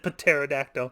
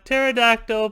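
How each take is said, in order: First: The initial P is pronounced before the T. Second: The initial P is silent; it starts with T. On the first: The speaker calls it wrong. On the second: The speaker calls it right.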